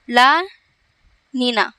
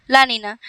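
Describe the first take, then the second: First: Very slow, La and Nina separated; drawn-out term. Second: Said in the usual way. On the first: Shown as a demonstration. Teacher giving students the new term, slow and broken up. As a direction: say ला, pause long, then Neena.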